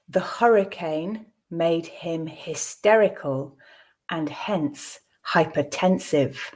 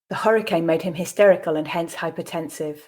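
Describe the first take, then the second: First: It is spoken at a slow pace. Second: It is spoken at a natural pace. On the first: "I'll read it the first time slowly" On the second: "then twice at a more natural pace"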